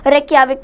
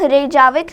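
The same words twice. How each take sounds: First: The j is said as a soft y sound. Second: The j is said as a hard j sound. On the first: The speaker calls it right. "Pronounce करेंगे" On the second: The speaker calls it wrong. "Pronounce नहीं करेंगे"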